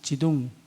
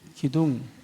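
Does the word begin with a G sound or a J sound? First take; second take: J sound; G sound. First: The word begins with a J sound. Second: The word begins with a hard G sound.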